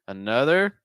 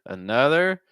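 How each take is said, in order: The two takes are said the same way.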